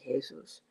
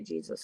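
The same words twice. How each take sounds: First: It starts with an h sound, stress last. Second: It starts with a j sound, stress first. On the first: "the Spanish speakers here... They say Jesus" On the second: "They don't say Jesus"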